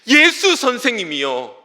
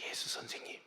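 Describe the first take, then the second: First: It is cried out loudly with desperate intensity. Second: It is said quietly in a low, restrained voice. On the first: The caller feels this is the last chance. The speaker calls it right. "절규하면서 ... 절박한 심정을 다하여" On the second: The caller feels ashamed and holds back. The speaker calls it wrong. "매우 절제하는 목소리로 아주 작은 목소리로 목소리를 깔고"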